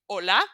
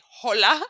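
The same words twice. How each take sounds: First: The word starts with a vowel, h silent. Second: The word starts with an audible h sound. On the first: The speaker calls it right. "You just say" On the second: The speaker calls it wrong. "You never say"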